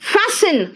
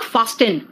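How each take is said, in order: First: The t sound is silent. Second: The t sound is pronounced. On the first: The speaker calls it right. "It is फैसन" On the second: The speaker calls it wrong. "It is not फास्टन"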